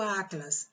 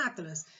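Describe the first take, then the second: First: Said in the usual way. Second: Atlas with a long, drawn-out first A; stress on first A. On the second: Shown as a demonstration. Teacher asking for the tonic syllable of Atlas, stressed long A. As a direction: stretch the opening A of Atlas. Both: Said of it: "O A".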